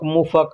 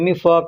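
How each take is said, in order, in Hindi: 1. पहला स्वर 'u' की आवाज़ है। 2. पहला स्वर 'i' की आवाज़ है। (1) "मुफ़क ऐसे लोग कहते हैं" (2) "पेचकस को अरबी में मिफ़क कहते हैं"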